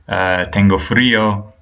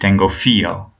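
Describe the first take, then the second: First: The r after the f is pronounced. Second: The r after the f is dropped. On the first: "instead of telling me tengo frío" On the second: "he'll drop certain consonants like the letter R"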